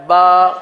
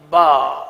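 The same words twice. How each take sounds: First: "با" from the wet lip, louder; correct pronunciation. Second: "با" from the dry lip, lower; wrong pronunciation. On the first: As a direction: show the proper wet-lip "با". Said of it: "یہ تر حصہ ہے". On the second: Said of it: "یہ خشک حصہ ہے". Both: Shown as a demonstration.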